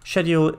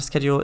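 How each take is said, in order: First: The word has a British pronunciation. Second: The word has an American pronunciation. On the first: "schedule is the British pronunciation of the word" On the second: "schedule is the American"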